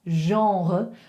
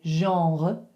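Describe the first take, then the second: First: It has a throaty French r sound. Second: The same.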